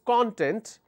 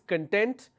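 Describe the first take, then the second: First: The stress is on the first syllable. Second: The stress is on the second syllable. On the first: It means the material or index. "When you pronounce this as content, it means index, or ingredient" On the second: It means being happy. "when you pronounce this as content, that means being happy"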